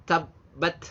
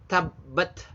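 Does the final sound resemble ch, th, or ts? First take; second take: th; th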